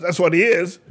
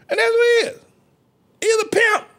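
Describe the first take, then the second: First: Said in the usual way. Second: Very high falsetto insistence; piercingly high preacher cry; high-pitched squeal. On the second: Real, not acted. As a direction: squeal the verdict out. Preacher repeats his verdict, squealing.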